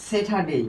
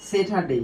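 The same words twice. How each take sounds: Both takes have the same delivery.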